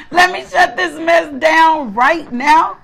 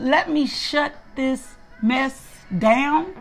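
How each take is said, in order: First: Higher, slow and insistent; emphatic self-command. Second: Drawn out word by word, pitch climbing at the end; slow self-command. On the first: Woman ordering herself off social media, raised and emphatic. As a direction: insist on it, pitch lifted and words stretched. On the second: Woman telling herself to quit social media, slow and deliberate. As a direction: spell it out slowly to yourself. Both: Retold or imitated.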